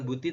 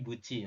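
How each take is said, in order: First: The second consonant is a plain t sound. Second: The second consonant is a ch sound. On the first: The speaker calls it wrong. "Bukan buti" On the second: The speaker calls it right. "tapi buci nanti dibacanya"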